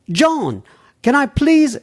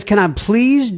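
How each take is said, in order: First: High-pitched attempt at an English accent; bad English accent. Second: Said in the usual way. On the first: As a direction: put on a hammy, lilting English accent. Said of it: "started to do a bad English accent". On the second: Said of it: "I'm going to forgo that".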